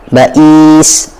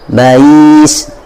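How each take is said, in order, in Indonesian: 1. Ada hentian glotis penuh di tengah. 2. Hentian glotis dilunakkan menjadi bunyi luncur.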